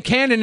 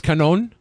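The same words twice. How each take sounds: First: "canon" said as CAN-un; dialect pronunciation. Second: "canon" said as kuh-NOHN; long stressed second syllable on "canon": kuh-NOHN; Latin-country pronunciation. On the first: Irritably explaining their dialect, CAN-un. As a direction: hit the first syllable of "canon": CAN-un. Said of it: "saying canon in their fucking dialect". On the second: Explaining how a Latin country says it, kuh-NOHN. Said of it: "like, a Latin country". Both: Shown as a demonstration.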